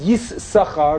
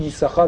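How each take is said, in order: First: یس ساخار split with a double s; spelled-out یس ساخار, both s sounds heard; two s sounds. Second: یساخار with a single s, run together; plain یساخار, no double s; one s sound. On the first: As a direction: say یس ساخار with a break after یس. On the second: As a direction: say یساخار smoothly. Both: Shown as a demonstration.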